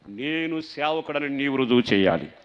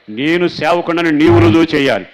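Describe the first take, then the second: First: Slow, louder pleading prayer; fervent prayer. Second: Shouted prayer, much louder and higher; preaching at full force. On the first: Pastor quoting a prayer to the church, slow and fervent. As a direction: plead it slowly with rising force. Prayer quote, first take. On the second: Pastor repeating the prayer to the church, shouting it. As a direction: cry the same line out at full voice. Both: Acted.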